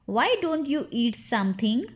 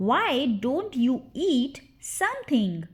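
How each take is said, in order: First: Said in the usual way. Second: Slow, word-by-word teaching take; deliberate, drawn-out drill model; slow repeat. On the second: Shown as a demonstration. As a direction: separate the words for learners. Drill, slower repeat for learners.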